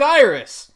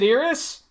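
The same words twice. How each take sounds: First: "Iris" as EYE-ris, long I then r; correct Iris. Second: "Iris" with a short EE-start, IH-ris; wrong Iris. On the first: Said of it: "They pronounce it". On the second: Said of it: "They don't pronounce it". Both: Shown as a demonstration.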